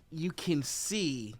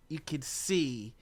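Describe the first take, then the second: No difference in how they are said.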